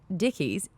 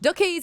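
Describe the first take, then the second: First: The vowel is said as in standard speech. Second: The vowel is shifted as in New Zealand speech.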